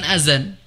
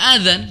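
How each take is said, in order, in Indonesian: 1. Konsonan tengahnya adalah bunyi 'z' yang mendengung. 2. Konsonan tengahnya adalah bunyi 'dh' yang lembut. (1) "bukan azan" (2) "Harusnya adzan"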